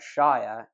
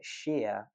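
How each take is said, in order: First: It is said in its full standalone form. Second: It is said in its unstressed suffix form. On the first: "but shire if we're referring to it on its own" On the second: "We pronounce it shire when it's the suffix"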